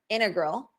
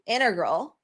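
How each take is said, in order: Both takes have the same delivery.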